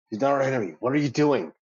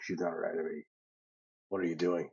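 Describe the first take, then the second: First: It is said in his normal voice. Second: It is said in a Davros-like tone.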